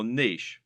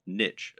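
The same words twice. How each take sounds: First: Said in the usual way. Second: "niche" said as "nitch", rhyming with "rich"; alternative pronunciation. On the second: Shown as a demonstration. Presenter giving the variant some people use, "niche" said as "nitch". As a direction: say "niche" with a short i and a final ch. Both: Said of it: "as some people pronounce it".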